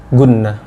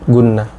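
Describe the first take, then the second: Both takes have the same delivery.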